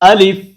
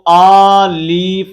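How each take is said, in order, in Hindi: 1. पहला स्वर छोटा और तेज़ है। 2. पहला स्वर लंबा खिंचा हुआ है। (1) "हमज़ा को बगैर खींचे लाम को फ़ा के साथ फ़ौरन मिलाएँ" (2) "इसको आलिफ नहीं पढ़ना"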